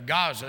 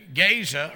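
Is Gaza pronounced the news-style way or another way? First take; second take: news-style; other way. First: Gaza is pronounced the way news reporters say it. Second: Gaza is pronounced differently from the news style.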